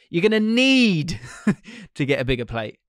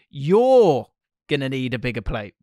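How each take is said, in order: First: The voice sounds pleading and desperate. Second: The voice sounds aggressive and demeaning. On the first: The speaker is begging the listener. "takes on a pleading tone with a pang of desperation" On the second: The speaker is bluntly putting the listener down. "is aggressive, a little demeaning, but gets the job done"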